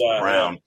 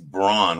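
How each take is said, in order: First: The vowel sounds like the one in 'town'. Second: The vowel sounds like the one in 'dawn'. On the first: This is how the player himself pronounces it. The speaker calls it right. "But it's Brown" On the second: This is the pronunciation people would expect. The speaker calls it wrong. "You would think it's Braun, right?"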